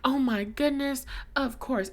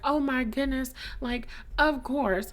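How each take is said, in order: First: It is said in the speaker's plain accent. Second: It is said in a Southern accent.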